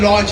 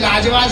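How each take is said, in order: First: The vowel is an open 'aw' sound. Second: The vowel is a long 'aa' sound. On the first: "उसको लॉज चाहिए था" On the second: "यहां पे औ का उच्चारण नहीं है, आ"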